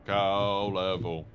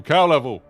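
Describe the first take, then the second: First: Slow, low, drawn-out "Cow level"; put-on low, slow voice; playful low voice. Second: Loud, slightly raised "Cow level"; brisk loud announcement; playful call. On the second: Acted. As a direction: punch out "Cow level" loudly. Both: Repeats phrase in two voices.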